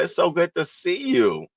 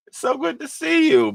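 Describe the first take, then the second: First: Said in the usual way. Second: Much higher, gushing greeting; sky-high happy hello; high delighted squeal. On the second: Real, not acted. Repeats greeting, second take higher.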